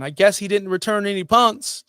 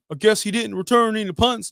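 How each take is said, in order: First: Said in the usual way. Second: Higher, put-on Florida accent. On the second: Shown as a demonstration. Fantasy host mocking a player's fans in a Florida accent. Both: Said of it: "doing my Florida accent".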